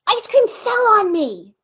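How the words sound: It is said excitedly, like an exclamation.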